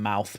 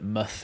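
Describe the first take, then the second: First: The word is said with a full diphthong vowel. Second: The word is said with a short reduced vowel. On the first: "rather than mouth" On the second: "people have called it muth"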